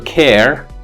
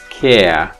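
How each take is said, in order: First: The final r sound is clearly pronounced. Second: The final r becomes a schwa-like vowel. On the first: "regular English, like general North American English" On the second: "becomes schwa when it's word final preceded by a vowel"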